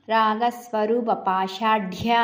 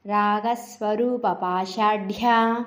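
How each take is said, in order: First: Said in the usual way. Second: Slow పాషాఢ్య with the ఢ్య pressed hard; slow deliberate recitation, ఢ్య of పాషాఢ్య emphasized; stressed ḍha. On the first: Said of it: "ఎలా పలకాలో చూద్దాము". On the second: Shown as a demonstration. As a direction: lean on the ఢ in పాషాఢ్య, slowly. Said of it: "డాకు ఒత్తుంది".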